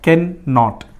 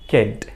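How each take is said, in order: First: It is said as two separate full words. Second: It is said as one short contracted word. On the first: "separate रहा तो" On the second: "contraction है तो उसका pronunciation change हो जाएगा"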